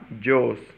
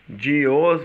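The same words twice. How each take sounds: First: The words are merged into one syllable, dos. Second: The two words are said separately, two syllables. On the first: "vai ficar de os" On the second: "em vez de falar de os"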